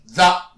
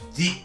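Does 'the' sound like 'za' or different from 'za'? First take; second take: za; different. First: The word is said with a 'za'-like vowel. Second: The word is said without the 'za' vowel. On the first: The word stands alone or before a consonant. "単独だったら、ザ" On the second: The next word starts with a vowel. "ザではなくて"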